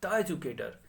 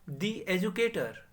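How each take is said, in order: First: 'The' is pronounced with a short 'uh' sound. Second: 'The' is pronounced with a long 'ee' sound. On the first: The speaker calls it wrong. "ना कि द educator" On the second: The speaker calls it right. "Same चीज दी educator"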